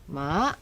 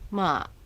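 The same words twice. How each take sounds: First: The pitch dips and then rises. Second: The pitch dips low. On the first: It means horse. "dipping rising, horse" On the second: It means tomb. "low dipping, tomb"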